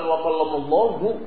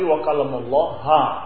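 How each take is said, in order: First: The word ends with an u vowel. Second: The word ends with an a vowel. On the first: God is the one who speaks. The speaker calls it wrong. "itu bukan wa kallamallahu" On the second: God is the one spoken to. The speaker calls it right. "tapi wa kallamallaha dengan fathah"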